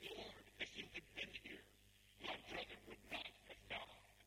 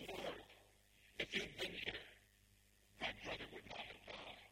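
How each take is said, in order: First: Restrained grieving plea; anguished Martha. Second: Heartfelt, emphatic lament; impassioned Mary. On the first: Martha meeting Jesus after her brother's death, restrained anguish. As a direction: quietly reproach him through grief. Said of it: "she wrings her hands and she says". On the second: Mary falls at his feet in the road, impassioned grief. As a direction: plead it with weighty pauses. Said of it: "she says the exact same words". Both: Acted.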